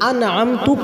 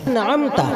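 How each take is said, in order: First: The word ends with a 'u' vowel. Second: The word ends with an 'a' vowel. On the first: I gave the blessing. The speaker calls it wrong. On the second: You gave the blessing. The speaker calls it right.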